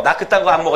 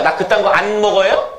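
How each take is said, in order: First: "안 먹어" said 암 머거, falling; colloquial pronunciation. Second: "안 먹어요" with a clear n, rising at the end; standard pronunciation. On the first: Teacher coaxing class into honest everyday speech, colloquial pronunciation. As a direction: let n become m in "안 먹어". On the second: Teacher prompting class to repeat, careful standard pronunciation. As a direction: keep the n in "안 먹어요", as a rising question. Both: Shown as a demonstration. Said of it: "에이, 왜 이러세요?".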